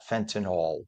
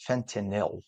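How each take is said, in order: First: Fentanyl ending in "nall"; FEN-tuh-nawl for fentanyl; mispronunciation. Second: Fentanyl ending in "nil"; careful FEN-tuh-nil for fentanyl; correct pronunciation. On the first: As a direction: say fentanyl slowly, last syllable rhyming with "all". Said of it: "not fentanyl". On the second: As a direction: say fentanyl slowly, last syllable like "nil". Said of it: "it's pronounced fentanyl". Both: Shown as a demonstration.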